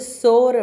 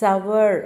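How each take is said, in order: First: The vowel is a plain 'or' sound. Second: The vowel is a two-part 'ow-er' sound. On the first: The speaker calls it wrong. "சோர் அப்படின்னு சொல்லக்கூடாது" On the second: The speaker calls it right. "Actually it is சவர்"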